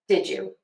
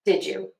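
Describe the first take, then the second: First: The d and y blend into a j. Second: The same.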